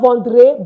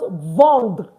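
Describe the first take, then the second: First: The final 're' sound is clearly pronounced. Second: The final 're' sound is dropped. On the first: The speaker calls it wrong. "it's not vendre" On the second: The speaker calls it right. "it's pronounced vendre. You don't pronounce the re at the end"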